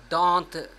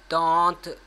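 No difference in how they are said.

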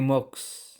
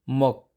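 First: The word ends in a ks sound. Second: The word ends in a k sound. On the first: The speaker calls it wrong. "hindi moks" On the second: The speaker calls it right. "Si consonant S ay silent"

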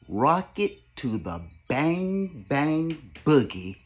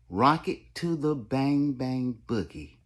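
First: The phrase is said slowly. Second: The phrase is said at normal speed.

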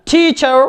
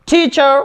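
No difference in how they are said.

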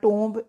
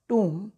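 First: It ends in 'ohmb' with a 'b' sound. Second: It ends in 'oom' with no 'b' sound. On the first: The speaker calls it wrong. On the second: The speaker calls it right.

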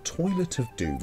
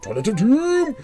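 First: It is said in a plain, flat way. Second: It is said loudly and dramatically. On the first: The speaker calls it wrong. "You can't just say" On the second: The speaker calls it right. "No, it's got to be"

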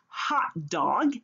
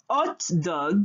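First: The initial h is pronounced. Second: The initial h is silent. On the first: "hot dog in English" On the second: "hot dog en français"

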